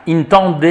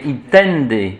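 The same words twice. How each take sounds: First: "intende" with French nasal vowel in TEN; nasalised intende. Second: "intende" drawn out with pure vowels and sounded N; un-nasalised intende. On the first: Teacher shows class the wrong Latin, nasalised vowels. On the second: Teacher gives class correct Latin, slow pure vowels. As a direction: say "intende" slowly as in-TEN-dé, no nasalising. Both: Shown as a demonstration. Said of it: "mais on nasalise pas".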